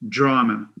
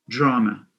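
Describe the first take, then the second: No difference in how they are said.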